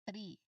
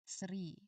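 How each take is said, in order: First: It begins with a plain t sound. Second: It begins with an airy th sound. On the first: The speaker calls it wrong. "if you say tree, it simply means your tongue is not touching your teeth at all" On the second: The speaker calls it right. "make sure that you can actually feel the soft air flowing past your tongue"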